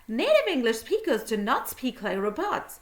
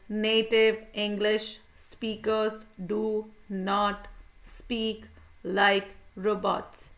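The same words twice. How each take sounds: First: It is said fast, words run together. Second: It is said slowly, word by word.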